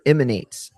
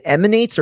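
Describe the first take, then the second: First: Emanates starting with a short I sound; IH-manates. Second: Emanates starting with a short EH sound; EH-manates. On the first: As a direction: say emanates as IM-uh-nates. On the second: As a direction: say emanates as EM-uh-nates. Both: Shown as a demonstration. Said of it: "it's just not an I".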